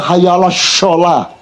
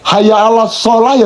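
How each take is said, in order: First: The last word starts with an 'sh' sound. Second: The last word starts with a plain 's' sound. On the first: The speaker calls it wrong. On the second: The speaker calls it right.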